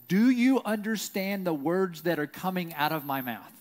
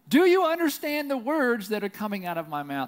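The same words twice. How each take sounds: First: It is said at a normal volume. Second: It is said loudly, almost shouted.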